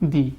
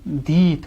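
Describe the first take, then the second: First: The vowel is short. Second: The vowel is long. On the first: "जैसे इसको बोलते हैं ग, इसको बोलेंगे दी" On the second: "थोड़ा लंबा"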